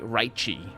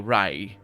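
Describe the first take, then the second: First: The final t becomes a chee sound. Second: The final t sound is dropped. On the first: "Brazilian accent would be raichi" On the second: "A Spanish speaking person will say "rai" and just drop the t at the end"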